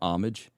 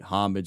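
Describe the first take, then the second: First: The word begins without an h sound. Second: The word begins with an audible h sound.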